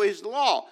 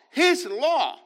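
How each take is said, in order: First: Said in the usual way. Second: HIS punched louder and much higher; stress on HIS. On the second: Real, not acted. Preacher insisting the law belongs to God, stress on HIS. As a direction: hit "His" hard, pitched up high.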